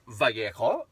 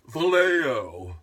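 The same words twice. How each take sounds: First: The name is pronounced with Spanish sounds. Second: The name is pronounced with English sounds. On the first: This is the original pronunciation of the name. The speaker calls it right. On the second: This is how the city's name is said today. The speaker calls it wrong.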